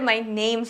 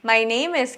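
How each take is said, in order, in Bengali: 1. 'is' শব্দটি শুধু একটি s ধ্বনিতে সংক্ষিপ্ত হয়ে যায়। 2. 'is' শব্দটি আলাদা একটি সিলেবল হিসেবে বলা হয়। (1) "সংক্ষিপ্ত করে মাই নেমস বলা হয়" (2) "মাই নেম ইজ কে সাধারণত সংক্ষিপ্ত করে"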